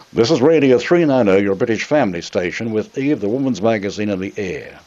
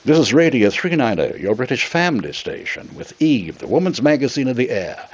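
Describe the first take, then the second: First: Broad Australian accent on the station ident. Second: British announcer accent on the station ident; English accent. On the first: To the station bosses, a broad Australian accent. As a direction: read it as a thick Australian would. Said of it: "A real Australian accent, you know, just like that". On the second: Auditioning for the station, a polished English accent. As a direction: put on your best English broadcaster accent. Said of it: "my acting abilities came to my mind". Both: Shown as a demonstration.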